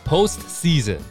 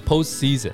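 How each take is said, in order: First: Said at normal speed with the t sounded. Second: Said quickly with the t dropped.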